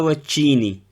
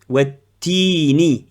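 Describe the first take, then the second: First: The consonant before i sounds like ch. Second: The consonant before i is a plain t. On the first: The speaker calls it wrong. "Ils n'ont pas watchini" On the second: The speaker calls it right. "Ta kasra ti"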